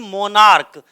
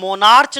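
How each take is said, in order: First: The ending is said with a 'k' sound. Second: The ending is said with a 'ch' sound. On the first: The speaker calls it right. "बल्कि मोनार्क। का का उच्चारण आएगा" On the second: The speaker calls it wrong. "इसे हम मोनार्च नहीं पढ़ते"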